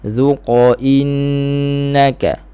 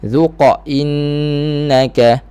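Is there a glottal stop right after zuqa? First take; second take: no; yes. First: No glottal stop is added after zuqa. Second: A glottal stop is added after zuqa. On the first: The speaker calls it right. "begitu sahaja. Okey, tanpa hamzah" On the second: The speaker calls it wrong. "itu tambah huruf di belakang"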